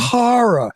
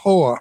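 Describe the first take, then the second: First: The word has two clear syllables. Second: The word is squeezed into one syllable. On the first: The speaker calls it right. "please pronounce that correctly" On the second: The speaker calls it wrong.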